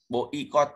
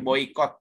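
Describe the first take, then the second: First: The 'o' and 'i' are separate syllables. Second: The 'oi' glides as one diphthong. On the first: The speaker calls it wrong. "nggak dibaca boikot gitu" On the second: The speaker calls it right. "tapi boykot"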